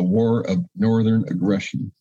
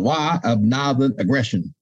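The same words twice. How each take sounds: First: It is said in a plain, neutral accent. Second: It is said in a put-on Southern accent.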